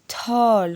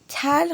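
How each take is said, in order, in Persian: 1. این واکه شبیه 'a' باز است. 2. این واکه شبیه 'e' کوتاه است. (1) "تال خونده میشه" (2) "اینجا تل خونده نمیشه"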